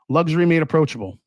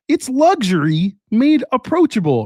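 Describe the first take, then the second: First: It is said in a normal voice. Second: It is said in a Kermit the Frog voice.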